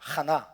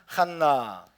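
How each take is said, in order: First: The middle n sound is short. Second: The middle n sound is held long. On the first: "그냥 그냥 하나" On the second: "한나라고 발음하기도 하고"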